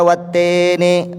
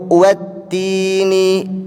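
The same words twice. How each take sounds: First: The vowel after the double t is e. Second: The vowel after the double t is i. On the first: The speaker calls it wrong. "huruf vokal i-nya berubah jadi e" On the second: The speaker calls it right. "Ya mati itu huruf vokalnya adalah i"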